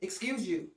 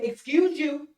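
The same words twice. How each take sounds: First: Muttered sass. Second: Sassy retort. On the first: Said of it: "take our church face down". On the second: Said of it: "go to the extent and say". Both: Retold or imitated.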